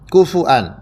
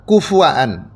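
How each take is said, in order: First: A vowel after f, then a glottal stop. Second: The same.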